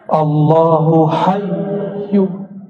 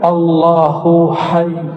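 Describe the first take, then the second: First: The last word ends with an added vowel sound. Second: The last word ends on a bare consonant. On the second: "hayyu disukunkan"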